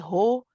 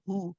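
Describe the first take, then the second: First: The vowel sounds like o. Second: The vowel sounds like u. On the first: The speaker calls it wrong. "we don't say ho" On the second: The speaker calls it right. "You want to say hu"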